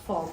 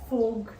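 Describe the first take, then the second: First: The vowel is an open o sound. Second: The vowel is a closed o sound. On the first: The speaker calls it right. "फॉग होता है" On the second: The speaker calls it wrong. "लेकिन please फोग नहीं होता"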